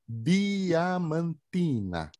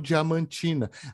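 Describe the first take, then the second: First: It starts with a plain, hard D sound. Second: It starts with a soft, J-like D sound. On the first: The speaker calls it right. "É puro, tudo puro" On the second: The speaker calls it wrong. "não"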